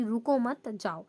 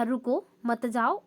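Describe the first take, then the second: First: रुको मत together, brief break, then जाओ; pause after मत. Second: रुको set apart, then मत जाओ together; pause after रुको. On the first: Teacher showing how punctuation changes meaning, pause after मत. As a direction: break after मत, setting जाओ apart slowly. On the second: Teacher showing how punctuation changes meaning, pause after रुको. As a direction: slowly, break after रुको before मत जाओ. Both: Shown as a demonstration. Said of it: "तीन अलग-अलग तरीकों से विराम चिन्ह".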